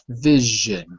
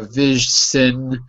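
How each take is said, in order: First: The middle consonant is a buzzing 'zh'. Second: The middle consonant is a hissing 's'. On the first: The speaker calls it right. "It's j, like measure" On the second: The speaker calls it wrong. "you would say it wrong if you used an S"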